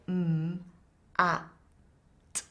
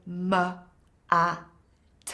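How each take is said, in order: First: The consonants are said pure, without an added vowel. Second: The consonants are followed by an added 'uh' vowel. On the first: The speaker calls it right. "so much easier to put those sounds together" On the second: The speaker calls it wrong. "if you say m, a, t, it's really hard"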